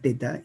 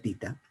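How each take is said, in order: First: The first vowel sounds like 'e'. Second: The first vowel sounds like 'ee'. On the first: This is the usual local name of the letter. "esa es la letra griega teta" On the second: This is how it is said in Greek. "se pronuncia tita"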